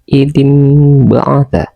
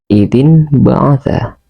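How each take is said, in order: First: The nasal before the b sounds like m. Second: The nasal before the b sounds like n. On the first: This is how it is recited. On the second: This is how it is written.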